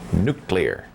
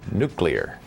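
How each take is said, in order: The two takes are said the same way.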